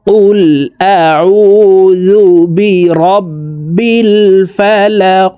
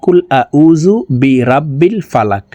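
First: The letters are pronounced carefully and precisely. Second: The letters are pronounced casually and loosely. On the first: The speaker calls it right. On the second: The speaker calls it wrong.

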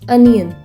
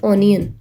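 First: The first vowel sounds like 'uh'. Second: The first vowel sounds like 'oh'. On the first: The speaker calls it right. "ਇਹਨੂੰ ਆਪਾਂ ਅਨੀਅਨ ਬੋਲਾਂਗੇ" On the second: The speaker calls it wrong. "ਨਾ ਕਿ ਓਨੀਅਨ"

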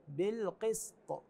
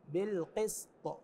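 Both takes have the same delivery.

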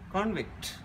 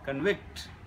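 First: The stress is on the first syllable. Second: The stress is on the second syllable. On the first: It is used as a noun. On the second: It is used as a verb. "is a verb"

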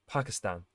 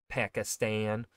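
First: The A vowels are said without a long A. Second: The A vowel is said as a long A. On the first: This follows how people from the country say it. The speaker calls it right. "his way of pronouncing it would be like Pakistan, which I think is the more accurate way" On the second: This follows the common American way of saying it. The speaker calls it wrong. "the long A that Americans like to use"

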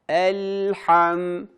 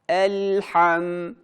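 The two takes are said the same way.

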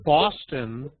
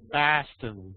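First: The first vowel has a standard pronunciation. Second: The first vowel is changed, Boston style.

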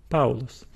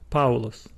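The two takes are said the same way.

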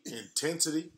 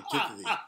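First: It is said without a lisp. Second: It is said with a lisp.

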